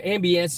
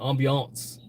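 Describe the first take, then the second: First: The word is said with a plain English pronunciation. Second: The word is said with a fancy French-like pronunciation.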